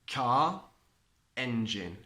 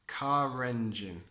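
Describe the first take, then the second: First: Said as separate words, with no linking R. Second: Said joined, with an R linking the words.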